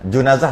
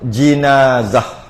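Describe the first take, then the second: First: The first vowel is a u sound. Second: The first vowel is an i sound. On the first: The speaker calls it wrong. "Junazah tak boleh" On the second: The speaker calls it right. "Atau baris bawah"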